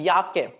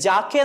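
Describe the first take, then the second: First: The word begins with a Y sound. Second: The word begins with a J sound. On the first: The speaker calls it right. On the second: The speaker calls it wrong. "ജാക്കെ എന്നല്ല വായിക്കുന്നത്"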